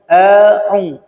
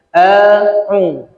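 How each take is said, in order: First: The vowel is opened moderately, lips spread. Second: The vowel is opened moderately, lips spread.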